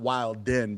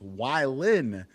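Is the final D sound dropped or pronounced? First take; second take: pronounced; dropped. First: The word ends with a D sound. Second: The word ends without a D sound. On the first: The speaker calls it wrong. "not Wildin" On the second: The speaker calls it right. "make the D silent"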